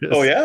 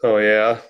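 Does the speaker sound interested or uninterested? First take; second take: interested; uninterested. First: It sounds engaged and interested. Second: It sounds flat and uninterested. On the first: The listener finds the news interesting. "like that's interesting" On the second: The listener is only pretending to care. "that means that you're like, yeah, I'm listening, but I don't give a"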